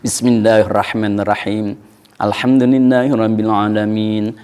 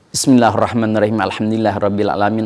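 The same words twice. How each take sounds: First: There is a clear pause between the verses. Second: The verse end is cut short, then runs on. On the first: The speaker calls it right. "Kalau mau ada napas, ada jeda, ada saktah" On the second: The speaker calls it wrong. "Engkau sukun tapi terus saktah bukan, koto tidak, waso enggak"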